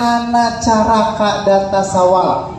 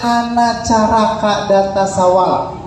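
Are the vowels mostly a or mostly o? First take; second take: mostly a; mostly a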